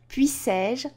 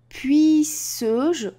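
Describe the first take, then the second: First: The vowel before 'je' is a clear é. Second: The vowel before 'je' is a mute e. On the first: The speaker calls it right. "c'est pour cela qu'on met un et" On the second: The speaker calls it wrong. "ça donnerait puisse-je. Donc ici, il y aurait un problème de prononciation"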